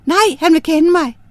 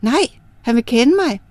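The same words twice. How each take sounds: First: Emphatic refusal. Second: Said in the usual way. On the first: Acted. Girl refuses fourth offer.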